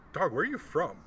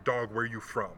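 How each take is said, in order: First: Threatening street question; imitating a hostile demand; menacing question. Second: A quick, easy "Dog, where you from?" run together; relaxed street greeting; imitating a friendly ask; casual question. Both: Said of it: "the question changes when the tone changes".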